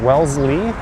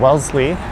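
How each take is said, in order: First: The middle consonant is a clear Z sound. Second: The middle consonant is a blend of S and Z. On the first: The speaker calls it right. "but it is Wellesley" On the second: The speaker calls it wrong. "a lot of people just kind of blend the S and Z sounds together"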